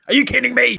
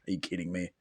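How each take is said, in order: First: High, loud outraged repeat; exasperated yell. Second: Said in the usual way. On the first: Real, not acted. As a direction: shout it in disbelief. Exasperated at the song ending.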